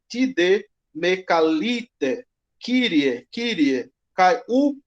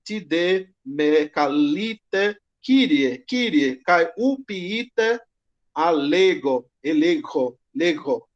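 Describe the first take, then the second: First: "calite" said with i, "Kyrie" as kiɾie, slowly; slow Greek with "calite" pronounced ka-li-te; intermediate Greek pronunciation. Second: Slow Koine reading, "calite" and "alego" with no h; Koine Greek pronunciation. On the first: Teacher demonstrating intermediate pronunciation, slow and careful. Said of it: "numa pronúncia mais intermediária". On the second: Teacher demonstrating Koine pronunciation, slow and careful. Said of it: "uma pronúncia mais coiné". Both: Shown as a demonstration.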